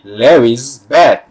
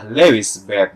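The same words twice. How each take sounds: First: An extra z syllable follows the name. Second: The name ends plainly with no extra syllable. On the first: "maka dibaca ada huruf Z" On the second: "Dia biasa saja"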